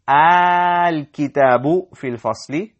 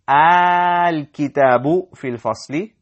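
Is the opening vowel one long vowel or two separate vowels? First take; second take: one long; one long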